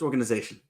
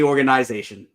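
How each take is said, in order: First: The word is said with a New York accent. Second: The word is said without a New York accent. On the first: The speaker calls it right. "you're in New York, my friend. It's organization" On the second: The speaker calls it wrong. "Don't say organization"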